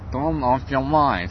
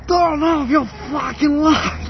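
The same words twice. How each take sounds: First: Put-on slow, stern Finnish-accented English. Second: Much higher furious yelled command; furious shout. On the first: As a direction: mimic a Finn's English, slowly. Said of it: "у них такой акцент гусары". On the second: Retold or imitated. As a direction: scream it, patience gone. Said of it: "такой просто уже нахрен".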